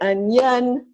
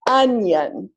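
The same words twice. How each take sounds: First: The stress is on the second syllable. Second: The stress is on the first syllable. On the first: The speaker calls it wrong. "If I clap it the other way, sounds wrong" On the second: The speaker calls it right. "two syllables, stress on the first syllable"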